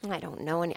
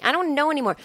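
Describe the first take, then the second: First: Soft, low false start; hushed, lower, lost; quiet muttering. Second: Pitched up, at full voice; higher-pitched giving up; exasperated repeat. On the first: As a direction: mumble to yourself and break off. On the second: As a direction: throw it out helplessly, higher. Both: Real, not acted.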